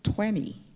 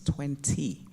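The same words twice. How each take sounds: First: It is said with an American accent, soft T. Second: It is said with a British accent, clear T. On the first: Americans say it this way. The speaker calls it wrong. "Americans seem incapable of pronouncing the letter T" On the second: The speaker says it this way naturally. The speaker calls it right. "no, it's twenty"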